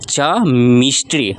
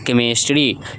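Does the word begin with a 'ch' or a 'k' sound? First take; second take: ch; k. First: The word begins with a ch sound. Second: The word begins with a k sound. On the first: The speaker calls it wrong. "इसको हम लोग च नहीं पढ़ेंगे, नहीं तो ये हो जाएगा च मिस्ट्री" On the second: The speaker calls it right. "C H को कभी कभी प्रोनाउंसिएशन में क पढ़ते हैं"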